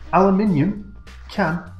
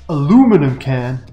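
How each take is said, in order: First: It is said in a British accent. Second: It is said in an American accent. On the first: "So in English, right, I'm at the recycle centre. I'd say to the man" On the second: "Now in American, I'm getting good at this. In American, you say"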